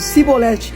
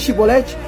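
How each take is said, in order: First: The word begins with a plain s sound. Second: The word begins with a sh sound. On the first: The speaker is from a group that cannot pronounce it. The speaker calls it wrong. "os efraimitas não conseguiam falar essa palavra. Eles diziam Sibolete" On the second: The speaker is not from that group. The speaker calls it right. "em vez de Shibolete"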